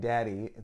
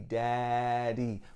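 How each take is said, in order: First: The first vowel is said at normal length. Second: The first vowel is stretched out long.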